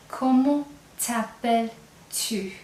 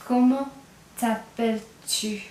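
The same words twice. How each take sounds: First: "Comment t'appelles-tu?" drawn out slowly, tu clear at the end; slow it right down so the tu is heard; slow informal demo. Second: "Comment" then a pause, then "t'appelles-tu?" slowly; split slow demo. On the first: Teacher to class, slowly modelling the informal question. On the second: Teacher to class, splitting the informal question slowly. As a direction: break it into two slow chunks. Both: Shown as a demonstration. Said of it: "you'll hear that "tu" at the end".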